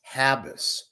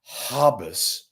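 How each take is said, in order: First: The first vowel sounds like the 'a' in 'hab'. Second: The first vowel sounds like the 'o' in 'hob'. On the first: The speaker calls it right. "It's Habas, not Hobbes, like Roy Hobbs" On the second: The speaker calls it wrong. "It's not Habas, as Papa says"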